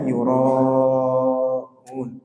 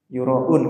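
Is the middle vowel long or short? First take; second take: long; short. First: The middle vowel is held long. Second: The middle vowel is short. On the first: The speaker calls it right. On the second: The speaker calls it wrong. "Biasanya gimana bacanya? Yura'un gitu aja"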